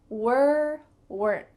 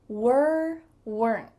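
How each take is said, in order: Both takes have the same delivery.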